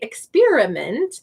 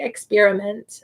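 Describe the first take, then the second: First: The middle vowel is a full, clear 'i' sound. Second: The middle vowel is a reduced 'uh' sound. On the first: The speaker calls it wrong. "They're not going to hear us say experiment" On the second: The speaker calls it right. "it's going to have the uh in it"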